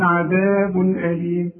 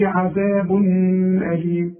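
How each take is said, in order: First: عذاب أليم with a clear un, عذابن أليم; clear tanwin. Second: عذاب أليم with the tanwin dropped; wrong tanwin drop. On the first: Teacher giving the correct reading. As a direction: sound the tanwin clearly before the hamza. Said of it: "هقول". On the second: Teacher showing pupils the wrong reading. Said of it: "لا". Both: Shown as a demonstration.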